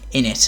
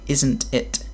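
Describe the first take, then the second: First: It is said in a rough, unpolished British accent. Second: It is said in a refined Southern British accent. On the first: It is the way other Brits speak. The speaker calls it wrong. "we don't say words like in it" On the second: It is the way Southerners speak. The speaker calls it right. "And we say"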